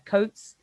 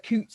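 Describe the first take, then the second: First: It uses the modern standard vowel. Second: It uses the older, dialect vowel. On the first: This is the modern standard form. "We wear coats" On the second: This is the older form, still used in dialect. "We don't wear coots anymore in standard English"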